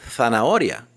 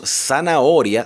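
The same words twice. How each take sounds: First: The first sound is like a th. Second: The first sound is like an s. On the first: The speaker calls it right. "la pronunciación correcta sería zanahoria, con Z" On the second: The speaker calls it wrong. "Cuando decimos zanahoria"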